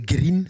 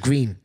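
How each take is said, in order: First: The word has a Glaswegian accent. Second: The word has an English accent. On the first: This is how he spoke with friends, which his father disliked. "I'd say green" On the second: This is how his household expected him to speak. "instead of green"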